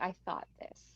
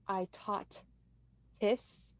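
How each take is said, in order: First: The TH in thought is said as TH. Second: The TH in thought is said as T. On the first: The speaker calls it right. "he is able to say the T H's" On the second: The speaker calls it wrong. "instead of saying like I taught this"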